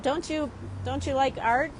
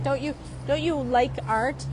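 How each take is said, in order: First: Cheeky question. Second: Pushing it. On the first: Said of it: "I even said". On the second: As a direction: needle him playfully with the question. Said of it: "I was kinda pushing it". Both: Retold or imitated.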